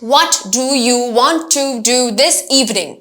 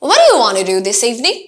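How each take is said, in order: First: Every word is pronounced fully and strongly. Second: The small words are weak and reduced. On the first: The speaker calls it wrong. "Most definitely আমরা এভাবে তো প্রশ্ন করি না।" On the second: The speaker calls it right. "আমরা কিন্তু এই do টাকে strongly উচ্চারণ করছি না"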